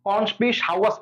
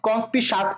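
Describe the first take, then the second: First: The ending is said as 'sawas', with 'wa'. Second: The ending is said as a short 'sas'. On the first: The spelling's vowel letters are kept in mind. The speaker calls it right. "কনস্পিসাওয়াস পড়বা" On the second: The spelling's vowel letters get lost. The speaker calls it wrong. "তুমি যদি কনস্পিসাস পড়ো তাহলে কিন্তু ইউওটা আসবে না"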